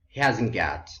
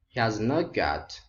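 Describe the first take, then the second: First: The middle two words merge into one word. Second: Every word is said separately in full. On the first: The speaker calls it right. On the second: The speaker calls it wrong.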